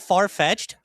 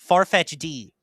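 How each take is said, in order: First: The name ends like the word 'fetched'. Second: The name ends with a separate letter 'D'. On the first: The speaker calls it right. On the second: The speaker calls it wrong.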